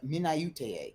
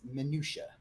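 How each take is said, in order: First: The word is said as a spelling-based misreading. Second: The word is said in its standard form. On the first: The speaker calls it wrong. "he didn't know how to pronounce minutia" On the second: The speaker calls it right. "it's minutia"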